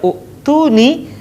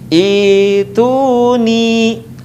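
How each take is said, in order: First: The word begins with an u vowel. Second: The word begins with an i vowel. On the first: The speaker calls it wrong. "tidak dibaca u'tuni" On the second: The speaker calls it right. "dibaca dengan harokat kasrah"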